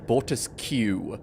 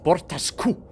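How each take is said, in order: First: The ending is said like English 'kew'. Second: The ending uses a throaty Klingon 'q' sound. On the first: The speaker calls it wrong. "They say Bortiskew" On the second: The speaker calls it right. "with the proper Klingon c- pronunciation of Q U"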